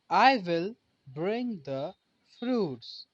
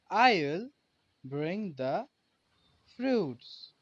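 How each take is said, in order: First: I will is said as two full words. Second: I will is shortened to one syllable. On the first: "the pronunciation changes from I will to I'll" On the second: "the pronunciation changes from I will to I'll"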